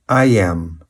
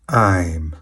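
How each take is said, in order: First: Two separate full words are pronounced. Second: The words merge into one short syllable. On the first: "Na forma longa ficaria" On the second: "Forma abreviada"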